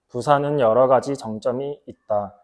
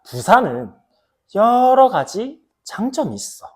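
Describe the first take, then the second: First: It is said flat, with little pitch change. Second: It is said lively, with varied pitch and loudness. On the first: The speaker calls it wrong. "이렇게 말하는 것과" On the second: The speaker calls it right. "후자는 조금 과하게 좀 설명한 것도 있지만은"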